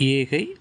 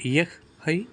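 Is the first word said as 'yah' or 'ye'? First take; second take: ye; yah. First: The first word is reduced to 'ye'. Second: The first word is fully said as 'yah'. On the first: This is the casual spoken form. "கலோக்கியலாக நாம் சொல்லும்போது" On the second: This is the written, careful form. "எழுதும்போது உச்சரிக்கும் பொழுது"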